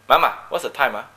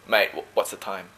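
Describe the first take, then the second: First: A light Malaysian accent, speaking to parents; lightly Malaysian, the tag ah at the end. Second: A light Aussie mate tone with friends; easy Australian accent, mate up front. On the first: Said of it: "I speak with a Malaysian accent". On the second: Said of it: "Or with my friends, I'll say". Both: Shown as a demonstration.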